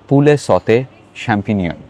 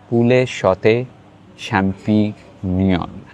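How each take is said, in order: First: The name is said quickly and loosely. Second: The name is said slowly and carefully. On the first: The speaker calls it wrong. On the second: The speaker calls it right.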